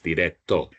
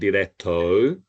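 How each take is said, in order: First: The final O is one steady vowel. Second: The final O glides like English 'oh'. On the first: The speaker calls it right. "so just one sound" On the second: The speaker calls it wrong. "don't say O"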